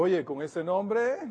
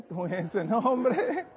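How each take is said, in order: First: Said in the usual way. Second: Slow, laughing echo of the line; teasing laugh at the girl's name; laughing repeat. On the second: Retold or imitated. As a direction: chuckle the words out.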